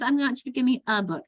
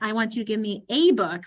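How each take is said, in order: First: The word 'a' is unstressed with a schwa. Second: The word 'a' is stressed with a full vowel.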